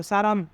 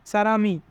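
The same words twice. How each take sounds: First: Said in the usual way. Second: সারামি with m carried into the next syllable; linked final consonant. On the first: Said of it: "মিউম নিচে থাকলে মো". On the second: Shown as a demonstration. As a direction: link it as sa-ra-mi in সারামি. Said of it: "তাই উচ্চারণ হবে মি". (সারামি, ম পরের স্বরে জুড়ে)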